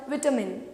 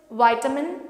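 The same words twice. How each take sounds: First: Vitamin with a short i, vi-ta-min; British vitamin, vi-ta-min. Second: Vitamin with a long i, vye-ta-min; American vitamin, vye-ta-min. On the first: Teacher giving the British vitamin after the American one. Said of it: "Britishers call it vitamin". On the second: Teacher giving the American vitamin first. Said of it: "the American pronunciation". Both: Shown as a demonstration.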